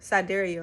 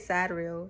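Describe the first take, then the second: First: It is said in the standard, conventional pronunciation. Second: It is said in her own casual pronunciation. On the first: This is how other people say it. "That's how they say it" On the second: This is how the speaker herself says it. "I say Sadrail"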